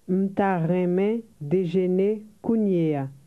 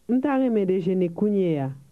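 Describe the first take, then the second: First: It is said slowly. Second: It is said fast.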